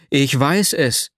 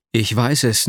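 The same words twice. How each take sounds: First: Calling out. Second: Said in the usual way. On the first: A narrator's reading. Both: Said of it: "rief ich".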